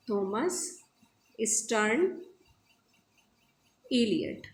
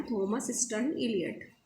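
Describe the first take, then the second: First: Thomas, stern, Elliot each said alone with a pause; spelling the name out. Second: Said in the usual way. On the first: Shown as a demonstration. Teacher to students, pausing between each name. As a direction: break Thomas stern Elliot into three separate words. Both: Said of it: "T S Eliot का पूरा नाम है".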